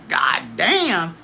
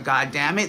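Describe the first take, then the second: First: It sounds delighted and positive. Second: It sounds annoyed and negative.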